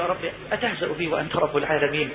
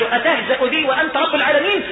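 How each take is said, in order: First: Low, soft incredulous question; hushed disbelief. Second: Quoted question, voice lifted; raised-voice questioning. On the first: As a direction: ask God as one who cannot believe it. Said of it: "ما هو مش مصدق". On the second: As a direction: recite the servant's question out clearly. إعادة سؤال العبد في الحديث. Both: Acted.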